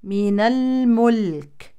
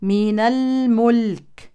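No difference in how they are said.

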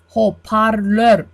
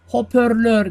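First: The second vowel is an a sound. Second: The second vowel is an ö sound. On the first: The speaker calls it right. "a harfi olacak" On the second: The speaker calls it wrong. "Hoparlör burada ö değil, a harfi olacak"

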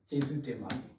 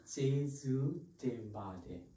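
First: It is said fast. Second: It is said slowly.

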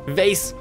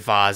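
First: The vowel rhymes with face. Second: The vowel does not rhyme with face. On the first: "Vase, like your face" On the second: "I don't say vase"

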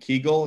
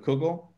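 First: It is said in a Polish-Ukrainian Yiddish pronunciation. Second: It is said in a non-Polish Yiddish pronunciation.

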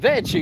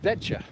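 First: The word is said with an Italian-sounding pronunciation. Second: The word is said with a Croatian pronunciation. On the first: The speaker calls it wrong. "You turn it into like an Italian thing" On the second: The speaker calls it right. "it's not like that, it's vecce"

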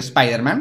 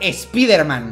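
First: It is pronounced with English sounds. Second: It is pronounced with Spanish sounds, as written. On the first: The name keeps its original form. "conserve su pronombre original en inglés" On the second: The name is adapted to local spelling. "en España se pronuncia Spider-Man, de acuerdo a la escritura del español"

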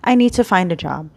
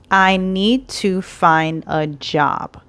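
First: The words are blended together smoothly. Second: Each word is said separately and clearly. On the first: "native speakers blend their words" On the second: "if you say it word for word, it's clear"

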